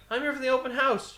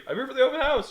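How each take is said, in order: First: High, chirpy mock-innocent voice; mock innocent reply. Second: High chirpy mock-innocent retelling; mock innocent reply. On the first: His innocent reply retold. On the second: Retelling his reply again. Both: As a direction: play dumb, sweetly high.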